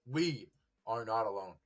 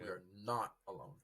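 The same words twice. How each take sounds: First: "we" raised and stressed, then let it fall. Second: NOT carries the weight, falling to the end; "not" stressed, the line falling away. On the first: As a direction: lean firmly on the word "we". Corrects "you" to "we" for emphasis. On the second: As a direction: lean on "not" in a settled repeat. Repeats it, now stressing "not. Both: Real, not acted.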